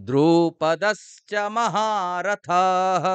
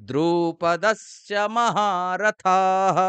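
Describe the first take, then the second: The two takes are said the same way.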